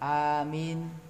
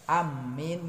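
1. Vokal pertama dibaca panjang; mim-nya tidak ditasydid. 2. Vokal pertama dibaca pendek; mim-nya ditasydid. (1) "a-nya alif yang dipanjangkan, mimnya tanpa tasydid" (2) "memendekkan alif dan mentasydid mim"

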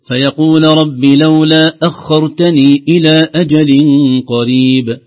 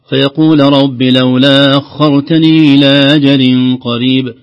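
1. الهمزات تُنطق كاملة وواضحة. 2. الهمزات مخففة وتُنطق بضعف. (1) "أخرجها من مخرجها محققة" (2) "لو قال البعض"

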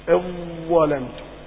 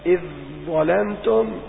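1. يندمج آخر صوت في الكلمة الأولى في الصوت الذي بعده. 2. يُنطق آخر صوت في الكلمة الأولى منفصلًا. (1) "اقول" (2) "اذن هذا اظهار"

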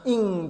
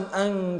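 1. تبدأ الكلمة بالصوت 'i'. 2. تبدأ الكلمة بالصوت 'a'.

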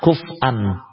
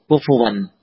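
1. Tidak ada vokal setelah f, lalu hamzah. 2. Ada vokal u setelah f, lalu w. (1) "mensukun huruf fa. Kemudian wawnya ya, diganti dengan huruf hamzah" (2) "dengan mendhammah huruf kaf dan mendhammah huruf sa, kufu, kemudian huruf terakhirnya adalah waw"

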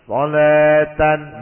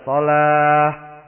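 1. Kata ini berakhir dengan bunyi -an. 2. Kata ini berakhir dengan bunyi -ah. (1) "Jangan kalimat solatan berhenti solata" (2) "maka dibaca solah"

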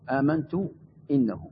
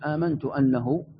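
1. الكلمة التي بعد amantu تبدأ بحركة 'i'. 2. الكلمة التي بعد amantu تبدأ بحركة 'a'. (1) "أيوة بالكسر" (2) "أي آمنت بأنه"

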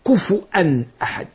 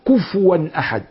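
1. تُنطق الهمزة بوضوح. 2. تُخفَّف الهمزة وتصير شبه صائت. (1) "والأصل" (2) "وتسهيل الهمزة ورد في قوله تعالى"

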